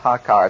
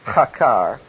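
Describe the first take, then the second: First: The first sound is a soft, plain h. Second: The first sound is a rough, throaty h. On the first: The speaker calls it wrong. "It's not hakar" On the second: The speaker calls it right. "it's hakar. ... because it's a rough"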